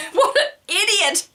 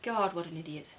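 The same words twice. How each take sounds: First: Hammed-up yell, much higher and louder, half laughing; laughing mock fury at her husband; mock outburst. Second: Dismissive scorn under the breath; a private eye-roll at her husband; scornful inner thought. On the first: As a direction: blurt it out in mock rage. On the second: Retold or imitated. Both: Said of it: "my first reaction is".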